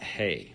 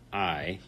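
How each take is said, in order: First: The vowel sounds like the word hey. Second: The vowel sounds like the word eye. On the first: The speaker calls it wrong. "not hey" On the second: The speaker calls it right. "pronounced like the letter I"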